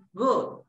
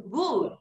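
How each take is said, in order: First: "good" with a short, loose oo; short open U. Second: "good" with a long, tight oo; wrong long U. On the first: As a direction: say "good" with the vowel of "foot". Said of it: "es good". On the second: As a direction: say "good" to rhyme with "food". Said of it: "Es que no es good". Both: Shown as a demonstration.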